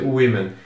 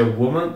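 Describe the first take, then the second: First: "women" with an I sound, WI-men; plural pronunciation. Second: "woman" with a rounded WO at the start; singular pronunciation. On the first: Teacher contrasts plural for students, WI sound in "women". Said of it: "aqui se pronuncia women". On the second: Teacher contrasts singular for students, rounded WO in "woman". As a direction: say "woman" as WO-man. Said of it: "aqui se pronuncia". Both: Shown as a demonstration.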